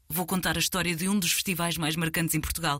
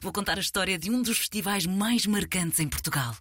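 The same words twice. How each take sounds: First: It sounds worried and dreading. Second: It sounds excited and thrilled.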